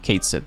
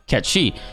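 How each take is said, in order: First: The name is pronounced as spelled in English. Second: The name is pronounced like ketchee, Gaelic-style. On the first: The speaker calls it wrong. "I'm saying it wrong, that it's actually not Cait Sith" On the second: The speaker calls it right. "it's pronounced Ketchi"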